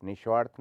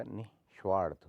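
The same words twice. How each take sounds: First: निस्वार्थ run together as nishvarth, loud; no visarga. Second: निस्वार्थ split as nih, svarth; sounded visarga. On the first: Teacher shows the error, निस्वार्थ without visarga. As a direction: drop the h in निस्वार्थ. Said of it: "नहीं होता". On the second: Teacher corrects it, निस्वार्थ with sounded visarga. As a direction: breathe an h after नि in निस्वार्थ. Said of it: "होता है". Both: Shown as a demonstration.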